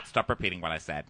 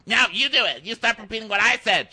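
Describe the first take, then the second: First: Low, quick, contained command; imitating a man losing patience; mock stern rebuke. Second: High, loud comeback; imitating a heated childish argument; mock squabbling retort. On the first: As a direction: cut him off in a low voice. Other side of acted squabble. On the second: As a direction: throw it back like a squabbling kid.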